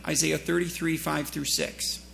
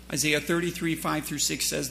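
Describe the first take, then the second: First: Slow reference. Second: Said in the usual way. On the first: Shown as a demonstration.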